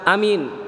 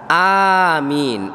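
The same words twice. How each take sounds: First: Both vowels are short. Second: Both vowels are long. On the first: It means became safe. The speaker calls it wrong. "A-nya pendek, min-nya pendek" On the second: It means answer my prayer. The speaker calls it right. "A-nya panjang, min-nya panjang"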